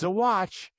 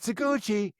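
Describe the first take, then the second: First: The name ends without an 'ee' vowel. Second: The name ends with an 'ee' vowel. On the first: The speaker calls it right. "It's Saguache" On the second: The speaker calls it wrong. "I want to say it's Saguchi, but it's not Saguchi"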